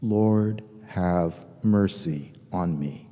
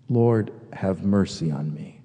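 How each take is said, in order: First: Low, slow, devout prayer; slow prayerful murmur. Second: Said in the usual way. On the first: Shown as a demonstration. Pastor showing congregation the prayer, low and slow. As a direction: breathe the prayer out slowly and lowly. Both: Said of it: "And it goes like this".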